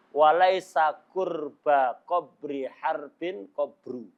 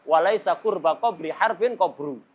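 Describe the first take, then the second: First: Slow, syllable-by-syllable verse; careful slow recitation. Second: Tricky verse run together in one flow; strung-together verse. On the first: Teacher presenting a famous hard-to-say Arabic verse, slowly. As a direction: spell out the hard line slowly, piece by piece. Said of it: "sulit diucapkan itu". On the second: Teacher showing it gets hard once joined, strung together. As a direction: link all the words without pausing. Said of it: "Ini setelah dirangkai susah". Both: Shown as a demonstration.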